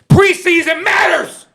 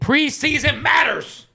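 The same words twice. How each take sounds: First: It is said loudly, with exclamation energy. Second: It is said in a calm, plain voice.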